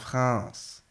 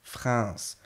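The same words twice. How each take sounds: The two takes are said the same way.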